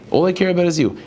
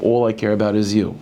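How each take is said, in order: First: "care" lifted high and leaned on; stress on care. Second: Said in the usual way. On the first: Retold or imitated. Teacher voicing a plea to God, "care" stressed hard. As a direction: push the word "care" up, pleading. Repeated devotion line, stressed take.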